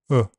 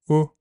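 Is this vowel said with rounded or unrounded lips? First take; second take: unrounded; rounded. First: The vowel is said with unrounded lips. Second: The vowel is said with slightly rounded lips. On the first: "or unrounded" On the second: "the second part can be slightly rounded"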